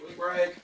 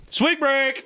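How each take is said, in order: First: Quiet echo. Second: Excited call. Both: Acted.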